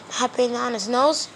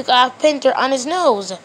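First: Quiet echo, rising on nose; puzzled echo question. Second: Said in the usual way. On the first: Pretend. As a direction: repeat it back as a doubtful question ending up on nose. Listener echoes it in disbelief.

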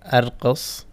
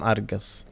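First: "أرقص" with a q, as arqos; standard qaf. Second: "أرقص" with a hard g, as argos; qaf as g. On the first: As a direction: keep the back k-like qaf in "أرقص". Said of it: "Please note that the قاف". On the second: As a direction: turn the qaf in "أرقص" into a Kuwaiti g. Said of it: "it's become أرقص". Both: Shown as a demonstration.

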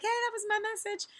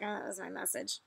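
First: High, bright recognition of own message; light, happy "that was my message!"; cheery "hey, that's mine". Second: Much softer, embarrassed "that was my message"; sheepish "oh". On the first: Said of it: "you can be like". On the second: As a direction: deflate it, a little caught out. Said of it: "Or you can be like". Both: Pretend.

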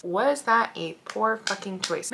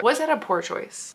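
First: Poor fucking choice dragged out softly; softer and slower, musing on her own mistake; slow, soft rhetorical question. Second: Said in the usual way. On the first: Shown as a demonstration. To her viewers, asking about her choice, slow and soft. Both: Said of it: "Maybe, maybe".

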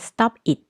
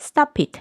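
First: "stop it" said as two separate words, stop then it; word by word, unlinked. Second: "stop it" run together as one word, "sto-pit"; linked stop it. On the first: Teacher reading from the dictionary: "stop it" unlinked. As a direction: keep "stop" and "it" apart, no linking. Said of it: "ตามคำศัพท์ก็จะออกเสียงเป็น stop it". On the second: Teacher showing linking: "stop it" as "sto-pit". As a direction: glide the p of "stop" straight into "it". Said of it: "สามารถเชื่อมเสียงได้ก็ใช้". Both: Shown as a demonstration.

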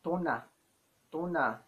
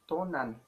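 First: "tona" ending on an open "ah", no N; silent final N. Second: "tonan" with the last N fully sounded; final N pronounced. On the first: Teacher showing the word for our mother, silent final N. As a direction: leave the end of "tona" open. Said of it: "You don't pronounce the letter N". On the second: Teacher showing learners what they needn't say, final N pronounced. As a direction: close "tonan" on a clear N. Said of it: "You don't say". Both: Shown as a demonstration.

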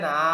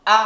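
First: Said in the usual way. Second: Short, sharp "আ" with a hard attack; "আ" as a tight, forceful glottal burst; hard, sharp hamza. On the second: Shown as a demonstration. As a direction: hit "আ" hard and cut it short. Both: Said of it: "এটা হলো শক্ত, তীক্ষ্ণ".

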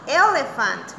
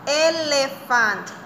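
First: Said in the usual way. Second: Slow, drawn-out Elephant with every syllable clear; slow model word. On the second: Shown as a demonstration. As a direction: say Elephant slowly for children to repeat. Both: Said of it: "Say it".

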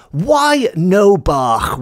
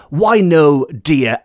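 First: Slow, lightly Welsh "Why no bach?" with a rolled throaty "bach"; drawn out "Why no bach?", just a hint of an old Welsh farmer. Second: Said in the usual way. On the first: Farmer gently soothes his worried wife, slow and lightly Welsh. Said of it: "these are direct quotes". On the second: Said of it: "He's saying".

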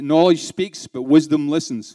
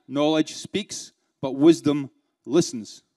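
First: Slow and deliberate, stressing knowledge and wisdom; slow, weighty quote. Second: Very slow, stressing knowledge and wisdom; slower repeat. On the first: Trainer gives managers the [name] quote, slow and weighty. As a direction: lay each word down slowly, like a proverb. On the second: Trainer repeats the quote for the audience, very slow and deliberate. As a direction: spell out the proverb again, word by word. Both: Shown as a demonstration. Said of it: "Do you understand?".

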